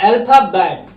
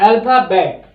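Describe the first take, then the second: The two takes are said the same way.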